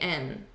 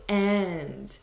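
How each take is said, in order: First: The word is reduced and weak. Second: The word is said in full. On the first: "he's saying and ... a way to reduce this" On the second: "he's not saying and"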